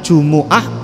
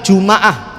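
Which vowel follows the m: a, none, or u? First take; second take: u; a. First: The m is followed by an u vowel. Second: The m is followed by an a vowel. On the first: "mimnya di dhammah" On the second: "mimnya di fathah"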